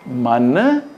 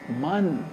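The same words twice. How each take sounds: First: The last letter is pronounced fully. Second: The last letter is pronounced weakly.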